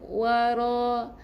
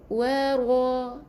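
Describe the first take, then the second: First: The r is said thin and light. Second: The r is said thick and heavy. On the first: The speaker calls it wrong. "bukan wara" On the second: The speaker calls it right.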